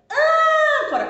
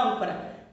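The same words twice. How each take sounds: First: Âncora with ÂN high, loud and drawn out; stress on ÂN. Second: Said in the usual way. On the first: Shown as a demonstration. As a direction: shout and hold the first syllable of Âncora. (Âncora com o ÂN gritado, agudo e prolongado) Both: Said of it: "qual que é a sílaba tônica da palavra âncora".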